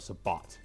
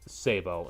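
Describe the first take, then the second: First: The word ends with a t sound. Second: The word ends in a vowel, no t. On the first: "instead of Sabat" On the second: "the military way"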